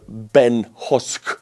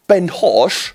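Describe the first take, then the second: First: Said in the usual way. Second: Ben Hosh in a mock Cockney accent, pitched higher. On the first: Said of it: "I consider your name to be butchered". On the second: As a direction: do a cheeky Cockney take on the name, with Husk said as Hosh. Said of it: "the Cockney Arthur".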